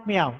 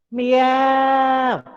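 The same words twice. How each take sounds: First: Said in the usual way. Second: High, long meow, jaws pulled back; cat meow with jaws back. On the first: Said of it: "Don't say meow". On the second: Shown as a demonstration. Teacher shows the right way to meow, jaws pulled back. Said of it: "the jaws must be pulled back".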